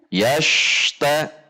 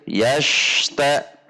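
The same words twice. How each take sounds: No difference in how they are said.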